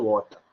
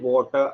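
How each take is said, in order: First: It is said in a British accent. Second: It is said in an American accent. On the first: "normal British ஆக்சென்ட்ல சொல்லும்போது" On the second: "American ஆக்சென்ட்ல போகும்போது வாட்டர் அப்படின்னு சொல்லணும்"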